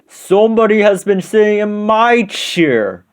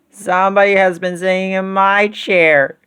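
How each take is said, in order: First: It is said in a great big voice. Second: It is said in a wee little voice.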